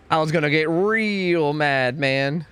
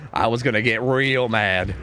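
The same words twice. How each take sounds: First: Slow, stretched "real mad" with a touch more push; drawn-out mock anger. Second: Said in the usual way. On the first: Shown as a demonstration. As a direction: stretch it out like a mild mock grumble. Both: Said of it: "repeated, slower and louder".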